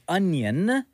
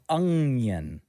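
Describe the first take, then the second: First: The first syllable ends in a plain n sound. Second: The first syllable ends in an ng sound. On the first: "the word is onion" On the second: "you've always said onion. Like U-N-G"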